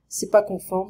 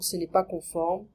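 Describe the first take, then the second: First: The negative ne is dropped after ce. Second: The negative ne is clearly pronounced after ce.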